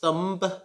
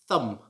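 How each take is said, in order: First: The final B is sounded. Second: The final B is silent. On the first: The speaker calls it wrong. "It should not be pronounced thumb" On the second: The speaker calls it right. "The silent letter is the B. It should just be thumb"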